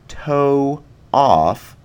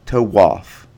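First: The two words are said without a w glide. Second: The two words are joined by a w glide.

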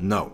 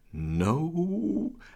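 First: It is said sternly, like a warning. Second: It is said fearfully, with a trembling voice. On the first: The speaker is scolding someone like a child. "holding up his finger warningly to Laura, like as though a parent scolding a child" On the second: The speaker is terrified. "there's a tremor in his voice"

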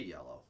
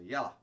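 First: The word is said plainly, without a twang. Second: The word is said with a country twang. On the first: "you don't say yellow" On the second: "You're just putting twang on it"

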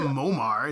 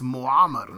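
First: The name is said with an English pronunciation. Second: The name is said with an Arabic pronunciation. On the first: The speaker calls it wrong. "It's not Muammar" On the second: The speaker calls it right. "practicing my Arabic. ... It's Muammar"

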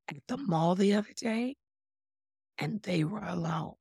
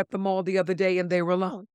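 First: The tone is knowing and insinuating. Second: The tone is plain and matter-of-fact. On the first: "Same words, but different tone" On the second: "That's the first case"

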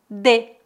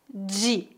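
First: It is said in a southern Brazilian accent. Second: It is said in a southeastern Brazilian accent.

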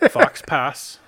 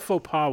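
First: The final consonants are pronounced, like fox pass. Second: The final consonants are silent, like foe pah. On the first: The speaker calls it wrong. "how I read them in my head my whole life" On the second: The speaker calls it right. "I know the faux pas one now"

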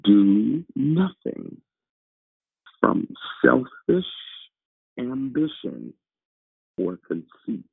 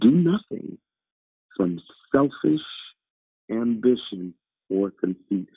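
First: The sentence is read at a slow pace. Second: The sentence is read at a fast pace. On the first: The speaker calls it right. "Slow it down" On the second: The speaker calls it wrong. "you read that too fast"

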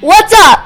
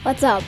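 First: It is said with more energy. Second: It is said with little energy.

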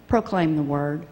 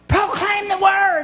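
First: It is said quietly and gently. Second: It is yelled as loud as possible.

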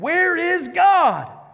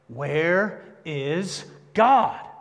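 First: It is said very loudly, almost shouting. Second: It is said loudly, louder than before.

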